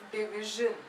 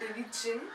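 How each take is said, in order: First: The middle consonant is a soft 'zh' sound. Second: The middle consonant is not a soft 'zh' sound. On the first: The speaker calls it right. "it's division" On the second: The speaker calls it wrong. "it's not division"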